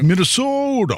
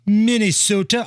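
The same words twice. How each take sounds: First: Minnesota said high, with long rounded Minnesota vowels; a playful Minnesota accent on Minnesota, pitched high. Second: Half-hearted Minnesota accent on Minnesota. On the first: Co-host outdoes the host's Minnesota accent, playful. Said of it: "There you go". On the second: Radio host tries a Minnesota accent, half-hearted. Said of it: "I don't do a very good Minnesota accent impression". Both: Shown as a demonstration.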